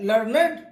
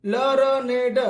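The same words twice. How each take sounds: First: Said in the usual way. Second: लर्नेड broken into slow separate sounds, la-ra-ne-da; syllable-by-syllable pronunciation. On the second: Shown as a demonstration. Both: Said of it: "इसलिए इसका उच्चारण".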